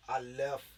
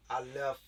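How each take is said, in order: Both takes have the same delivery.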